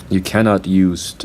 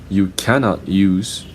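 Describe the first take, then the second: Both takes have the same delivery.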